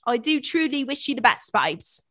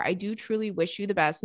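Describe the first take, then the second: First: Put-on playful, higher-pitched British accent; hammed-up British sign-off, falling on the last word. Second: Said in the usual way. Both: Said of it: "Not you talking British".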